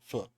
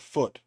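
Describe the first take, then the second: First: The vowel is a short 'uh' sound. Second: The vowel is a long 'oo' sound. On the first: The speaker calls it wrong. "not uh" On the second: The speaker calls it right. "it's O O"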